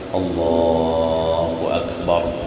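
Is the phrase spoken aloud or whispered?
aloud. It is spoken in a full, audible voice. "suara luar"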